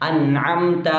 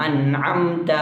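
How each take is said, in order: Both takes have the same delivery.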